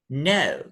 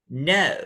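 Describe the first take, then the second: First: The pitch falls from very high to low. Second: The pitch falls from very high to low.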